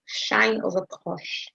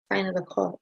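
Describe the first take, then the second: First: "sine" as "shine" and "cos" as "cosh", slowly; slow, deliberate sh in both "sine" and "cos"; shine over cosh. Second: Said in the usual way. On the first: Shown as a demonstration. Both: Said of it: "which we pronounce as shine x".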